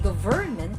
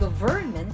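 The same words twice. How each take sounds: First: The stress is on the second syllable. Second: The stress is on the second syllable.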